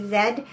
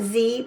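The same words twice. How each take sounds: First: The letter name is said the Canadian way. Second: The letter name is said the non-Canadian way. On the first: "Canada, we say Z" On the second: "not Z"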